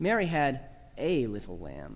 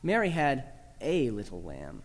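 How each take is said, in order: First: The word "a" carries the main stress. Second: The word "a" carries the main stress.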